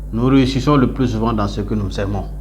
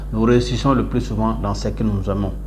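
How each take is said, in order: The two takes are said the same way.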